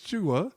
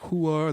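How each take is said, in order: First: The name begins without a Spanish-style h sound. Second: The name begins with a Spanish-style h sound. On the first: The speaker calls it right. "so I said no, it's Chua" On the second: The speaker calls it wrong. "they'll pronounce it like it's some, you know, Spanish. So it's like Hua"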